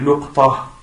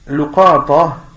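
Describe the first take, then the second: First: Short u after l, no vowel after q. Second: Short u after l, short a after q. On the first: "le quatrième qui est luqta ... Dhamma sur le lam" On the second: "le premier qui est luqata"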